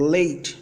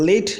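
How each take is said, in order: First: The vowel is a long gliding ei. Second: The vowel is a plain, unglided vowel. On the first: The speaker calls it right. "long sound এই এর সঠিক উচ্চারণ" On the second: The speaker calls it wrong. "না"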